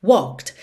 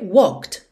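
Both takes have the same delivery.

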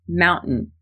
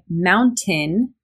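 First: The T is replaced by a glottal stop. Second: The T is pronounced as a clear T. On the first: "I use a glottal stop in mountain" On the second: "It's totally okay to say mountain with a T in there"

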